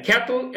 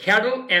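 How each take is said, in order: First: Cattle in a British accent with a crisp t, "kat-tle"; British pronunciation. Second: American pronunciation. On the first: Teacher demonstrating the British accent, cattle said as "kat-tle". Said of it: "এটা হচ্ছে British উচ্চারণ". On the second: Teacher demonstrating the American accent, cattle said as "kaddle". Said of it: "cattle আমেরিকার উচ্চারণ". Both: Shown as a demonstration.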